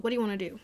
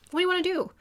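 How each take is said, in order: First: Said in the usual way. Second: Much higher, pushing the question; emphatic repeat. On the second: Shown as a demonstration. Pressing the client again about her dreams, emphatic and high. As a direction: urge her to answer this time.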